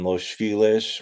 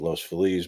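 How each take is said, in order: First: The name is said the common local way. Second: The name is said the original way. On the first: "it isn't ever pronounced properly" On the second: "if you pronounce it properly"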